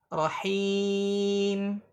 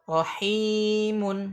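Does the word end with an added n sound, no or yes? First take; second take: no; yes. First: The word ends without any added n sound. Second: The word ends with an audible added n sound. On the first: The reader stops on this word. "dalam keadaan waqaf dia nggak ada hilang" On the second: The word is read connected to what follows. "kalau dibacakan kan munnya muncul tuh, nun tambahannya terdengar"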